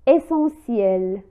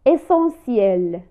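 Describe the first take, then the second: No difference in how they are said.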